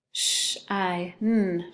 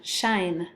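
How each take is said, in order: First: "Sh-I-N" as sh, long i, n with gaps; tapped out. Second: Said in the usual way. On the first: Shown as a demonstration. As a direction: break "Sh-I-N" apart sound by sound. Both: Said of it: "have you tap it out".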